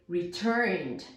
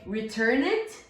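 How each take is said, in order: First: The ending is a plain 'd' sound. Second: The ending is an extra 'id' syllable. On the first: The speaker calls it right. "but we say returned" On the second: The speaker calls it wrong. "We don't say return it"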